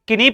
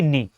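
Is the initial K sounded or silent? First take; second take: sounded; silent. First: The word begins with a spoken K sound. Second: The word begins directly with an N sound. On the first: The speaker calls it wrong. "ये wrong pronunciation होती है" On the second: The speaker calls it right. "के silent रहेगा"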